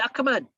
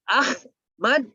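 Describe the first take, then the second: First: The middle sound is a k. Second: The middle sound is a plain h. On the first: This is another local form of the name. "jadi K" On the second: This is how the name is said locally. "menjadi Ahmad di bahasa Indonesia"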